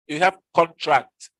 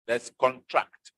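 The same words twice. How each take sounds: First: Slow dictionary reading, contract as a noun; slow noun demo. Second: Slow dictionary reading, contract as a verb; slow verb demo. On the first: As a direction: contract said slowly, stress on the first syllable CON. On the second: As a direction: contract said slowly, stress on the second syllable TRACT. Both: Shown as a demonstration.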